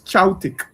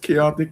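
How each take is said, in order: First: The word is pronounced dramatically distorted, like chaltic. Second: The word is pronounced in the ordinary way. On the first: It is extreme chaos, chaos on steroids. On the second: It is ordinary chaos.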